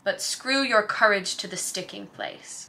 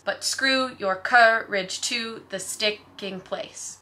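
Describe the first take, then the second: First: It is read with a natural speech rhythm. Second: It is read in a strict da-DUM beat.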